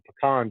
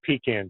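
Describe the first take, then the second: First: The first vowel is short, not a long e. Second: The first vowel is a long e sound. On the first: "it's not a long e" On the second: "not a pecan tree"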